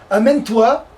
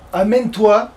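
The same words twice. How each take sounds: The two takes are said the same way.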